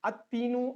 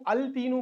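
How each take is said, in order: First: Put-on "التینو" as at-teenu, no l heard; assimilated lam. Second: Put-on "التینو" as al-teenu, l clearly sounded; lam pronounced. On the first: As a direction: double the t straight after the a in "التینو". ("التینو" کو ات تینو پڑھ کر) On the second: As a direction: keep the l before the t in "التینو". ("التینو" کو ال تینو پڑھ کر) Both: Shown as a demonstration. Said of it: "پڑھنے میں مشکل ہوتی ہے".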